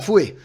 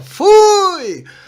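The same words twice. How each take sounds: First: It is said plainly, like everyday speech. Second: It is said with a marked, stylized intonation. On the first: Everyone said it this way. "a gente falava" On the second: It is the speaker's own catchphrase. "Agora eu vou fazer um fui com uma, a minha entonação"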